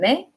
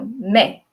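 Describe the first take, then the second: First: The syllable is said without stress. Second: The syllable is said with stress. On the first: The verb is in the present tense. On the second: The verb is in the past tense.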